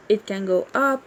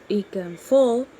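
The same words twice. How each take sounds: First: "up" said with the voice going up at the end; rising tune. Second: "fall" said with the voice dropping at the end; falling tune. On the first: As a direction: let "up" rise like a question. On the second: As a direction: let "fall" drop down and settle. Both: Shown as a demonstration.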